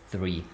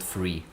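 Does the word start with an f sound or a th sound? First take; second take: th sound; f sound. First: The word begins with a th sound. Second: The word begins with an f sound. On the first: The speaker calls it right. "I just need to pronounce it three" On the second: The speaker calls it wrong. "not free"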